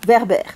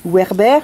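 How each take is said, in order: First: The name begins with a V sound. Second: The name begins with a W sound. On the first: "je ne lis pas Werber" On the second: "je lis Werber"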